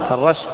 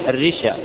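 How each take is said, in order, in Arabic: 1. بعد الراء يأتي a. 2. بعد الراء يأتي i. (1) "اذا قلنا فتعة" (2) "اذا قلنا رشوة يصير الرشا"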